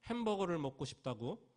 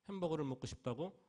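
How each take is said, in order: Both takes have the same delivery.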